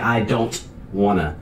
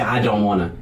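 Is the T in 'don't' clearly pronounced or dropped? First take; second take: clear; dropped. First: The T in don't is clearly pronounced. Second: The T in don't is dropped. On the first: It is meant to carry to an audience. "You would say, ... Because you need the T to carry through the audience" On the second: This is ordinary everyday speech. "when we speak normally as native speakers of English, we say"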